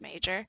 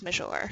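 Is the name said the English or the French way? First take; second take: English; French. First: It is said with an English pronunciation. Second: It is said with a French pronunciation. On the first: "I know you pronounce it Major" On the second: "the French way is Major"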